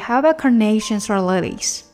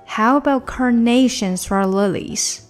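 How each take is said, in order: First: The question is said at a faster pace. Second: The question is said at a slower pace.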